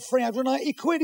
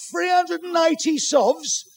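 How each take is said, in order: First: Said in the usual way. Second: High, drawn-out incredulous echo; outraged disbelief. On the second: Acted. Husband appalled at what the equipment cost, outraged disbelief. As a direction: stretch the price out in high-pitched outrage.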